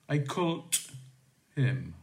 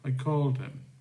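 First: The verb ends with an unvoiced t sound. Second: The verb ends with a voiced d sound. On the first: The speaker calls it wrong. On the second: The speaker calls it right.

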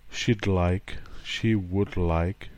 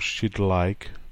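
First: Would is said as a full word. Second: Would is shortened to a d sound.

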